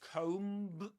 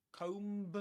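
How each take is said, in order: No difference in how they are said.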